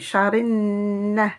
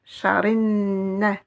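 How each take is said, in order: First: The L is dropped and merges into n. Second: The L is dropped and merges into n.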